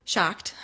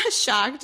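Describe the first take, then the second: First: Said in the usual way. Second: Laughing it out, higher and louder; a laughing echo of the word Shocked. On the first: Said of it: "repeats it laughing". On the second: Real, not acted. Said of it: "repeated with a laugh".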